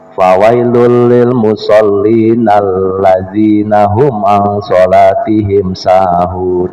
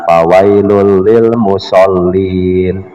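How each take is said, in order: First: It runs on without stopping after 'musallin'. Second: It stops right after 'musallin'. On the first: Woe is to those who are heedless of their prayer. The speaker calls it right. "harus diwasol" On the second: Woe is to those who pray. The speaker calls it wrong.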